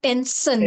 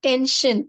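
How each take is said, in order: First: The second syllable sounds like 'sir'. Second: The second syllable sounds like 'sure'. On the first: The speaker calls it wrong. "it is not tension ... not sir" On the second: The speaker calls it right. "it is sure"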